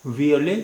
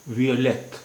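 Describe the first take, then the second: First: वियोले with the final t silent, ending on open e; French violet. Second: वियोलेट with a clearly sounded final t; French violette. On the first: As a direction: say वियोले, stop on the e. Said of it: "masculine singular". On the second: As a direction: say वियोलेट, land on a crisp t. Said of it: "feminine singular". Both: Shown as a demonstration.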